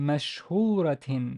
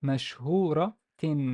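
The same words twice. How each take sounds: The two takes are said the same way.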